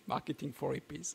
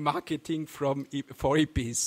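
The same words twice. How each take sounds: First: Said in the usual way. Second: Tripping over the title as "Marketing from E-, for Hippies"; a garbled first try at the name "Marketing from E-, for Hippies"; stumbling slip. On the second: Real, not acted. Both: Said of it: "Sorry, Marketing for Hippies".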